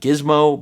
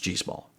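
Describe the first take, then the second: First: The name ends with a short 'mo' sound. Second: The name ends with a 'small' sound. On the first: The speaker calls it wrong. "it may read like Gizmo" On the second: The speaker calls it right. "the manufacturer assured me it's G Small"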